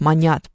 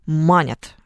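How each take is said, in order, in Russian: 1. Ударение на последнем слоге. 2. Ударение на первом слоге. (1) "а на самом-то деле они ж манят" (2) "все люди почему-то манят"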